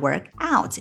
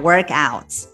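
First: The stress falls on out. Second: The stress falls on work. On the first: It is a verb meaning to exercise. "work out 两个单词分开，重读这个介词out" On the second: It is a noun meaning a workout. "要重读前面这个动词"

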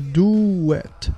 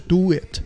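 First: A w glide links the two words. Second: The two words join without a w glide. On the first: The speaker calls it right. "do it 中间有一个w 的音夹在中间" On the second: The speaker calls it wrong. "不是do it"

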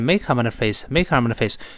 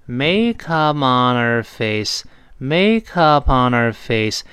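First: The phrase is said quickly. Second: The phrase is said slowly. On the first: "再快点" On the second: "就慢慢来"

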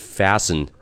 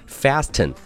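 First: The t in the middle is silent. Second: The t in the middle is pronounced. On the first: The speaker calls it right. "字母t 是一个silent t，也就是不发音的t，它真正的读音是fasten" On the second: The speaker calls it wrong. "你可千万不要看到这个词的中间有一个字母t，你就读成了fasten"

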